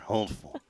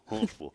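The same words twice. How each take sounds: First: It is said with a drawling Southern twang. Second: It is said plainly, without a Southern twang.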